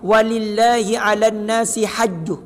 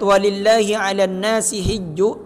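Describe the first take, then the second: First: The last word starts with an 'ha' sound. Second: The last word starts with an 'hi' sound. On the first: "bisa juga dibaca ... hajju pakai hak, sama-sama benar" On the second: "ketika membaca ayat walillahi 'alan nasi hijju"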